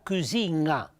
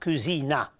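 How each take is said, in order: First: The n is velar, held before the vowel. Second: The n is a plain front n sound. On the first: The speaker calls it right. "ma le pronunciata cucina" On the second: The speaker calls it wrong. "non è pronunciata cucina"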